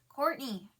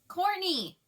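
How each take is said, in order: First: It is said weakly from a raw throat. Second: It is forced out loudly to carry.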